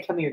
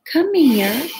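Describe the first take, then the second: First: Gentle, quiet call to a pet; showing the cat call; softly calling the cat. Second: High, sing-song call to a pet; high coaxing call to the cat. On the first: Shown as a demonstration. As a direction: quietly show how she calls the cat. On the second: Real, not acted. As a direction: coax the cat over in a lifted voice. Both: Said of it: "that's how I say, "Come here," to Loki".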